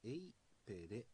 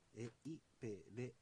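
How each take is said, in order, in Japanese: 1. 3拍で発音します。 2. 4拍で発音します。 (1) "サルムカワ千歳方言ではですね、エイペレというふうに、発音が3 拍" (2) "静内方言ではですね、エイペレというふうに、発音が4 拍なんですよ。"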